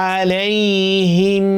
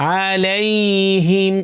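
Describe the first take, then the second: No difference in how they are said.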